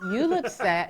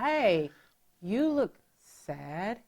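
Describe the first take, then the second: First: It is said in a harsh, mean tone. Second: It is said in a gentle, caring tone.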